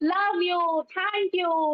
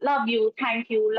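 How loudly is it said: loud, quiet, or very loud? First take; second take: very loud; loud. First: It is shouted very loudly with laughter. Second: It is said somewhat louder. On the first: The person is now enjoying it without fear. "గట్టి గట్టిగా అరుస్తూ, నవ్వుతూ" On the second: The person is gaining confidence. "ఇంకా కొంచెం గట్టిగా చెప్పు"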